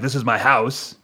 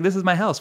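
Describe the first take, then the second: First: It sounds hostile and territorial. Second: It sounds warm and welcoming.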